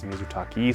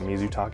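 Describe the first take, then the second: First: The final vowel sounds like 'ee'. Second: The final vowel sounds like 'eh'. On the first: The speaker calls it right. "it is Mizutaki" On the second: The speaker calls it wrong. "It is not Mizutake"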